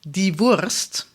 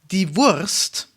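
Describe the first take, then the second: Both takes have the same delivery.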